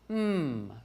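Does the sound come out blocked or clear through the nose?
clear. The hum flows clearly through the nose.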